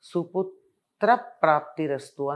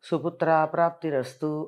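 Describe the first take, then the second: First: A short vowel ends suputra before praptirastu. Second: A long vowel joins suputra to praptirastu. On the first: It wishes that a good son be obtained. The speaker calls it right. "సుపుత్ర ప్రాప్తిరస్తు అనాలి" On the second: It wishes that no good son be obtained. The speaker calls it wrong. "ఎంత తప్పమ్మా అది"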